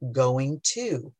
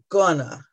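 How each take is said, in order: First: Both words are pronounced fully and separately. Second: The phrase is squeezed into one reduced word. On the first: The speaker calls it right. "way more conscious of saying going to" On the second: The speaker calls it wrong. "how sloppy my pronunciation was"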